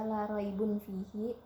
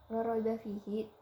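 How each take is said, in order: First: The word after la ends in -un. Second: The word after la ends in a short a. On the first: The speaker calls it wrong. "tidak dibaca" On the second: The speaker calls it right.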